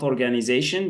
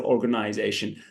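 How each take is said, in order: First: It is pronounced the French way. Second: It is pronounced the English way. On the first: The speaker calls it wrong. "not organization. That's in French" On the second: The speaker calls it right. "In English, we say organization"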